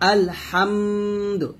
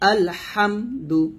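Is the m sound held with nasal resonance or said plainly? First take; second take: held nasal; plain. First: The m sound is held with nasal resonance. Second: The m sound is short, without held nasality. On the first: The speaker calls it wrong. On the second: The speaker calls it right.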